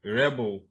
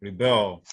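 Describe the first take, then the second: First: Rebel as REB-el, light ending; front-stress rebel on REB; stress on first syllable. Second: Rebel as ri-BEL, strong ending; stress on second syllable. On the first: Teacher repeating the noun, rebel stressed on REB. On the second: Teacher contrasting a word pair, rebel stressed on BEL. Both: Shown as a demonstration. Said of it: "stress that you could have".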